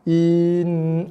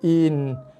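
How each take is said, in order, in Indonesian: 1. Vokalnya terlalu panjang diucapkan. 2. Vokalnya hanya diucapkan sebentar. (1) "dah jadi in. Ah, dah terlebih" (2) "Pendek aja bunyi"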